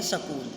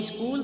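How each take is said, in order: First: सकूल split as sa-kool with an extra vowel; wrong pronunciation. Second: स्कूल with a clean sk cluster, no vowel before it; correct pronunciation. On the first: Teacher mimicking the regional error for the class. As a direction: break सकूल into two syllables, sa-kool. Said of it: "वे बोलते हैं". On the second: Teacher showing students the right form, crisp and clear. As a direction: say स्कूल as one tight syllable, skool. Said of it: "हम बोलते हैं". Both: Shown as a demonstration.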